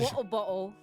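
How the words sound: It is said in an exaggerated, stereotyped British accent. This is the version others expect to hear. "They want to hear me say"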